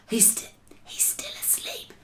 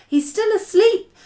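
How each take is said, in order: First: Very soft, breathy whisper. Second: Raised, voiced high delivery; high-pitched. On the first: BFG to Sophie about the sleeping giant, whispered. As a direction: whisper it so nobody wakes. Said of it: "the B F G whispered". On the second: BFG watching the sleeping giant, high voiced take. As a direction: say it high, without whispering. First take, before whispered redo. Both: A narrator's reading.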